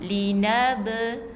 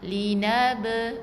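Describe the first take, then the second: First: The final b is released with a slight bounce. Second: The final b is released with a slight bounce.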